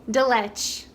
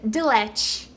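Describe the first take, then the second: No difference in how they are said.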